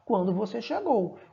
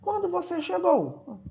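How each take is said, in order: First: It is said with statement intonation. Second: It is said with question intonation. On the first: It refers to the moment someone arrived. "Sem um ponto de interrogação, eu não sei que é uma pergunta" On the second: Someone is asking when the other person arrived. "Ele está perguntando"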